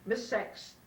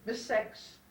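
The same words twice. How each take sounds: First: The name is said with an 'e' vowel. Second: The name is said with an 'e' vowel.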